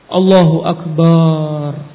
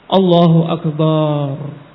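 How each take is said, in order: Both takes have the same delivery.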